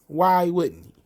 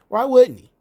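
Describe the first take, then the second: First: Said in the usual way. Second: Much higher, louder "Why wouldn't he?"; sarcastic loud outburst; exasperated outburst. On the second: Real, not acted. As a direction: throw up your hands sarcastically.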